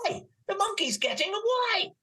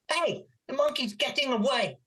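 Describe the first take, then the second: First: It is said excitedly, with more energy. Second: It is said flatly, with little energy. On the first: The speaker calls it right. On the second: The speaker calls it wrong.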